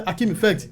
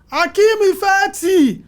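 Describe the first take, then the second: First: Said in the usual way. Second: "Akeem Ifeti" said much higher, slow and louder, stretching "Akeem"; imitating his pronunciation. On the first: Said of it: "And I say". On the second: Crew imitating how the producer pronounces his name, slow and high. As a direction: mimic the producer's drawn-out "Akeem Ifeti" call. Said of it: "Because the way he pronounces something is".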